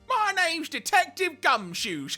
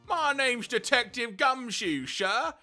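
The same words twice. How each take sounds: First: The voice is pitched higher. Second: The voice is pitched lower.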